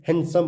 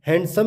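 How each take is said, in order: First: हैंडसम said as "han-sum"; हैंडसम with n running straight into s; silent D. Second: हैंडसम said with a D between n and s; हैंडसम as "hand-sum"; sounded D. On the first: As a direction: drop the D in हैंडसम. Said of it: "हैंडसम बोलते हैं". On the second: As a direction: pronounce the D in हैंडसम. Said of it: "हैंडसम ना बोल के". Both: Shown as a demonstration.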